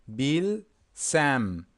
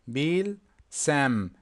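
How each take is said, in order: Both takes have the same delivery.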